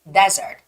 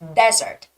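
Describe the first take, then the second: First: The stress is on the first syllable. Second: The same.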